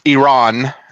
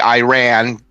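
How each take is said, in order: First: The name is said the standard way. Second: The name is said the way it looks spelled. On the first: The speaker calls it right. "technically it's pronounced Iran" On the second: The speaker calls it wrong. "some folks say Iran, you know, because of how, how it's spelled"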